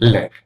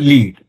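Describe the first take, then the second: First: The vowel is a short e sound. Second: The vowel is a long ee sound. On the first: "ఇది ఏ sound అనమాట, అంటే short ఏ" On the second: "లాకి ఈ ఒత్తు వచ్చింది, డా వచ్చింది, so లీడ్"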